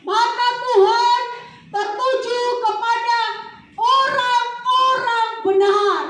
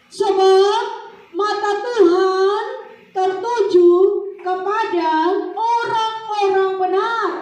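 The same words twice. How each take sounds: First: Loud, slow, high proclamation; proclaimed verse. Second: High, loud, slow half-sung proclamation; preaching at full force. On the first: Preacher booming the verse back to the congregation. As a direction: thunder the verse out slowly. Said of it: "preacher proclaims the verse". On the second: Preacher sing-song proclaiming the verse to the church. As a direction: chant the verse out with power. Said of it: "verse repeated at full force". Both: Acted.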